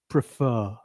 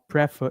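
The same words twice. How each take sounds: First: The stress is on the second syllable. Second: The stress is on the first syllable. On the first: The speaker calls it right. "the stress is on the second part of the word" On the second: The speaker calls it wrong. "It's not prefer"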